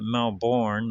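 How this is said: It is said with the American pronunciation. This is how the speaker's own people say the name. "we pronounce it Melbourne, like Melbourne, Florida"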